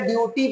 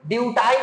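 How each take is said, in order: First: The word ends with an 'ee' sound. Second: The word ends with an 'eye' sound. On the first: The speaker calls it right. "बल्कि ड्यूटी पढ़ेंगे" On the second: The speaker calls it wrong. "ड्यूटाई नहीं पढ़ेंगे"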